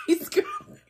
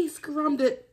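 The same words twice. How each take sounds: First: Very high squeal with a laugh. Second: Said in the usual way. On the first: Real, not acted. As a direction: squeal it, can't stop laughing.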